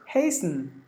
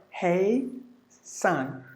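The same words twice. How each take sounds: First: "Hasten" joined up as HAYS-n; compact, softer "Hasten", S straight into N; S-N run together. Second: "hey son" with a gap, HAY... SUN; spaced-out "hey son", falling on the second part; two separate syllables. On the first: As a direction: say "Hasten" softly as one unit, no second vowel. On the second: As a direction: say "hasten" split in two with a full second vowel. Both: Shown as a demonstration. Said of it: "Look at the difference".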